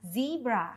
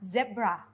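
First: The first vowel is long, like 'ee'. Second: The first vowel is short, like 'eh'. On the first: This is the American pronunciation. "ส่วนคนอเมริกันจะออกเสียงว่า" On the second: This is the British pronunciation. "คนอังกฤษจะออกเสียงว่า"

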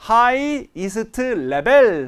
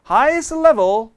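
First: Each sound is said fully and clearly. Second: The sounds are reduced and run together. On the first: This form is easy to catch by ear. "하면 들렸겠지만" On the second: This is how native speakers actually say it. "실제 원어민은 highest level 하니까 안 들렸던 거거든요"

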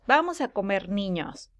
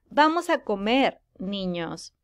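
First: It flows straight on with no pause before 'niños'. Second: There is a short pause before 'niños'. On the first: The children are going to be eaten. "en un hombre lobo que está comiendo niños" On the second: The children are being called to come and eat. "le pongo una coma en este espacio después de comer"

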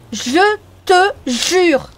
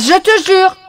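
First: It is said at a normal, soft volume. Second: It is said loudly.

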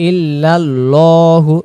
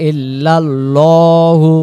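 No difference in how they are said.

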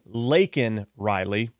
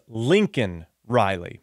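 First: The first name is said as 'Laken'. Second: The first name is said as 'Lincoln'. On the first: It is the murdered student's real name. The speaker calls it right. "instead of saying Laken Riley" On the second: It is the name of a college football coach. The speaker calls it wrong. "Joe Biden says Lincoln Riley"

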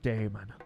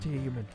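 First: It is said in the speaker's own plain accent. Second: It is said in an imitated Irish accent.

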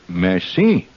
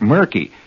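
First: It is said with a rough French sound. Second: It sounds like the English word murky. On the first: The speaker calls it right. "Say merci. ... That's Indiana French" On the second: The speaker calls it wrong. "don't say things like murky"

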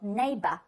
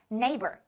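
First: The final syllable ends without an r sound. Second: The final syllable ends with an r sound. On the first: "在英国人的方式读来的话，这个词读作neighbor，就是后面那个没有儿化" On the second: "美式呢会把它发为。有儿化音的"

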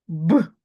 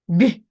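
First: The consonant is hard, not palatalized. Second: The consonant is soft, palatalized. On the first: "твердий б" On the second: "пом'якшений б"

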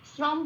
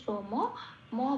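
First: The word ends on a bare m sound. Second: The word ends with a vowel after m. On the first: The speaker calls it wrong. "শ্রম বলতে পারবো না" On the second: The speaker calls it right. "শ্রম ম বলে উচ্চারণ করতে হবে"

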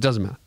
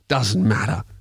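First: It is said in a nice, friendly tone. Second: It is said in an aggressive, hostile tone. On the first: It is a polite refusal. The speaker calls it right. "I said it in a nice way" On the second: It is a rude brush-off. The speaker calls it wrong. "I didn't grab her by by her lanyard"

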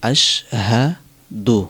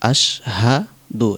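The two takes are said the same way.

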